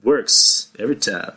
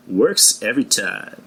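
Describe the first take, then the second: First: Lightly voiced suave catchphrase; Billy Dee Williams impression. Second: Slow, smooth catchphrase, lightly voiced; Billy Dee Williams impression. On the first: Repeating the impression for the people, lightly voiced. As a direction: repeat it smoothly as the actor. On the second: Showing off his actor impression to the listeners. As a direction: drawl it like the suave actor. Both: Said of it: "that's my Billy D Williams impression".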